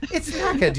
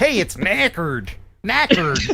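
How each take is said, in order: First: "knackered" with a soft R, higher and softer. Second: "knackered" with a hard American R; drawn-out "knackered", R fully sounded as in "NACK-erd". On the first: Host correcting own American version, soft R in "knackered". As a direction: say "knackered" as "NACK-uhd", R dropped, high-pitched. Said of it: "I need to use soft R's". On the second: Host mocking own American version, hard R in "knackered". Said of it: "I use that hard R". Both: Shown as a demonstration.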